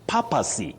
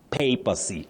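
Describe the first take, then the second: First: The first syllable does not sound like 'pay'. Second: The first syllable sounds like 'pay'. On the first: The speaker calls it wrong. "many people say papacy" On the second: The speaker calls it right. "You say pay"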